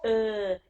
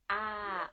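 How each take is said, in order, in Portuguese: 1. A vogal é fechada. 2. A vogal é aberta. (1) "uma sutil diferença" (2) "a vogal do A, do atim"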